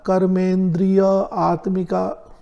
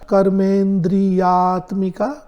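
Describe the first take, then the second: First: The compound is split before atmika. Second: The compound is said as one joined word.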